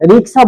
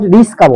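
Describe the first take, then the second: First: The k sound comes before the s sound. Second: The k sound comes after the s sound. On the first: The speaker calls it right. "রিক্সা রসই ক" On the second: The speaker calls it wrong. "এটা কিন্তু ভুল"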